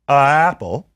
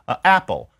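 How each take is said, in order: First: The two vowels run together without a break. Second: A catch in the throat comes before 'apple'. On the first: The speaker calls it wrong. "They don't say a apple" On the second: The speaker calls it right. "They say a apple. Well, what's the uh? It is a consonant"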